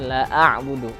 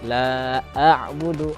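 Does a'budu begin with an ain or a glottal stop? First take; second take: ain; glottal stop. First: The ain sound comes without the glottal stop. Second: A glottal stop comes before the ain sound. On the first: The speaker calls it wrong. "ainnya masuk, nah, hamzahnya hilang" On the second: The speaker calls it right. "harus didahulukan hamzahnya, baru kita masuk ke huruf ainnya"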